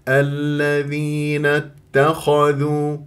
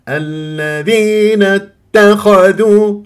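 First: The syllable 'dheen' is said without any stress. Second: The syllable 'dheen' is stressed and leaned on. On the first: The speaker calls it right. "هكذا من غير اتكاء ولا نبر" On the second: The speaker calls it wrong. "الصحيح ألا بس ذين لا تنبروها، يعني الذين اتخذوا، هذا غلط"

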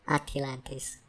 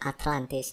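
First: It is said with a Korean-style pronunciation. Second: It is said with an English pronunciation. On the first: The speaker calls it wrong. "not Atlantis" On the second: The speaker calls it right. "English people will say Atlantis"

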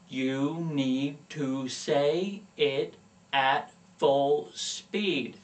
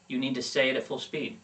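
First: The sentence is spoken slowly, each word enunciated. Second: The sentence is spoken quickly at normal pace. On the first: The speaker calls it wrong. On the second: The speaker calls it right.

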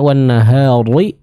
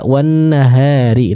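First: The r sound is heavy and full. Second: The r sound is light and thin. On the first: The speaker calls it wrong. "tebal, ini kurang tepat" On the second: The speaker calls it right. "ro-nya tipis"

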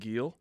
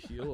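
First: The name begins with a hard G sound. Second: The name begins with an H sound. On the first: The speaker calls it right. "I'm going to be saying Gil" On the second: The speaker calls it wrong. "I will not be pronouncing it heel"

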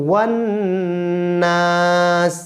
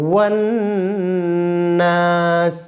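The two takes are said the same way.

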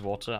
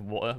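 First: The middle T sound is clearly pronounced. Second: The middle T sound is dropped entirely. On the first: "I always pronounce the T properly" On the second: "if you're skipping the T entirely"

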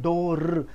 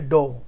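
First: The word ends with an audible 'r' sound. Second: The word ends without any 'r' sound. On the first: The speaker calls it wrong. "जबान थर्रानी नहीं चाहिए" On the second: The speaker calls it right. "र का sound हट जाता है"

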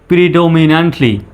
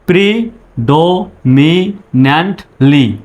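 First: All syllables are joined smoothly without any pauses. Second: Each syllable is said separately with pauses between. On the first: "একসঙ্গে বলুন এইভাবে" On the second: "আগে ভেঙে ভেঙে উচ্চারণ করবেন"

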